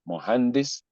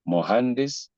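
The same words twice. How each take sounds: The two takes are said the same way.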